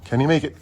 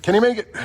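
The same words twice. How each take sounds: First: Said in the usual way. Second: Higher, eager suspense; excited. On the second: Real, not acted. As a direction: ask it again with rising excitement. Repeating, more eager.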